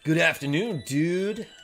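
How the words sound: It is said in a dumb meathead voice.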